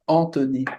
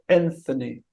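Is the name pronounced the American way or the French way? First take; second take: French; American. First: The name is pronounced the French way. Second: The name is pronounced the American way. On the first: "in France they say Anthony. They say" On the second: "but in America it's uh"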